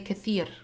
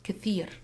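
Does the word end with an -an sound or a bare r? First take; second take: bare r; bare r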